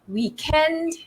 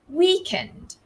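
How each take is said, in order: First: The stress is on the second syllable. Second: The stress is on the first syllable. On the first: This is the British English pronunciation. "British English, the stress falls on the second syllable" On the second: This is the American English pronunciation. "American English"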